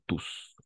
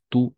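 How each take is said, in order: First: The word ends with a clear s sound. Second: The word ends on the vowel, without s. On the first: "Tiene dos pronunciaciones, tú o tus" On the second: "Tiene dos pronunciaciones, tú o tus"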